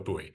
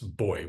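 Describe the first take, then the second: First: The word is said as two syllables, boo-ee. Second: The word is said as one syllable, boy.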